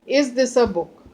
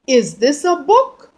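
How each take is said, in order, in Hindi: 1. यह सपाट, कथन जैसे लहजे में बोला गया है। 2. यह प्रश्न पूछने वाले लहजे में बोला गया है।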